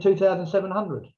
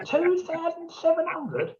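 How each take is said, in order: First: Said in the usual way. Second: High, slow stunned echo of the price; a slow, incredulous high-pitched question; shocked disbelief. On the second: Retold or imitated. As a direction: repeat it back, aghast at the cost.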